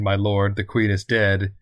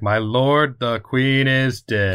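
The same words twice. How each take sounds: First: The line is said at a normal, calm volume. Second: The line is yelled loudly and tensely.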